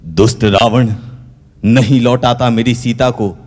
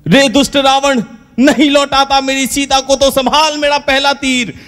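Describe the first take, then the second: First: Said in the usual way. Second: Much higher, bellowing the challenge; stagey heroic shout. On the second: Acted. Ram on the village stage, thundering his challenge at Ravan. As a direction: ham it up like a village Ramlila hero.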